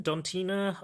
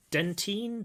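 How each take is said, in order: First: "Dontina" with DON first and an added final "a"; "Dontina" pitched up, unsure of the name; alternative pronunciation guess. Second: "Dentin" as a tentative, high-pitched guess; "Dentin" pitched up, feeling out the name; unsure pronunciation. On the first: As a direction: try "Dontina" as a high, doubtful second guess. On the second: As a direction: try "Dentin" with a DEN first syllable, questioningly. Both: Shown as a demonstration. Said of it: "don't know how you pronounce his name".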